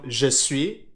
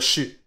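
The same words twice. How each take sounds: First: Both words are said fully and separately. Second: The words are run together and shortened. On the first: "au lieu de dire" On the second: "on abrège beaucoup de mots"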